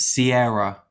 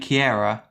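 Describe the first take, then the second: First: The name begins with an S sound. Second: The name begins with a K sound. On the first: The speaker calls it right. "It's Sierra" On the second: The speaker calls it wrong. "I was saying Kiera"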